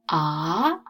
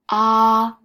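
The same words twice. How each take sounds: First: It is said with the second tone. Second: It is said with a high, level first tone. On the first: "Second tone" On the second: "ah is the first tone, higher"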